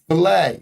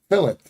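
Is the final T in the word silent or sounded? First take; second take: silent; sounded. First: The final T is silent. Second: The final T is sounded. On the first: This is the French way of saying it. "that's what the French would say" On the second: This is the English way of saying it. "the English would say fillet"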